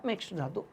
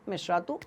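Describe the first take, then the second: First: "मिश्र धातु" in two words, keeping the "ध"; two-word pronunciation. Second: "मिश्रातु" as one word, dropping the "ध"; merged one-word pronunciation. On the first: Teacher recapping both correct forms, "मिश्र धातु" split into two words. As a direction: separate "मिश्र" from "धातु", sounding the "ध". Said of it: "दोनों ही सही है". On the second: Teacher recapping both correct forms, "मिश्रातु" merged into one word. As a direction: join it up as "मिश्रातु", no break inside. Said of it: "कुछ लोग मिश्रातु कहते हैं". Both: Shown as a demonstration.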